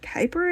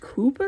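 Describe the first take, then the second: First: The name is said with an English pronunciation. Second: The name is said with a Dutch pronunciation. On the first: "in English we call it Kuiper" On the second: "it's pronounced Cooper in Dutch"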